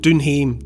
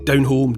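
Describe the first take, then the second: First: The phrase is said with a Scottish accent. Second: The phrase is said with a standard accent.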